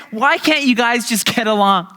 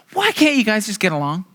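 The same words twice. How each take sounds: First: "Why can't you guys just get along?" higher, pleading, stretched out; exasperated parent. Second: Said in the usual way. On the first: Retold or imitated. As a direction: beg them to get along, at your wits' end. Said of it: "parents in the room". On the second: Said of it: "the one line they always say".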